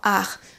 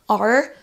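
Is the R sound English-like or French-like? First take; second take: French; English. First: The R is a French-style R. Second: The R is an English-style R. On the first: The speaker calls it wrong. "ils vont le transformer en are" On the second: The speaker calls it right. "mots anglais comme are"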